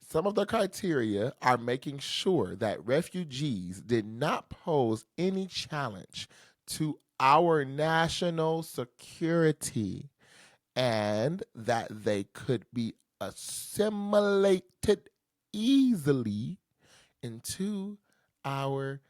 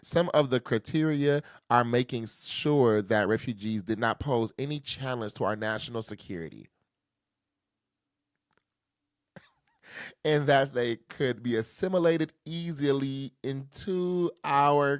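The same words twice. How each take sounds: First: It is read slowly and deliberately. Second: It is read at a normal speed.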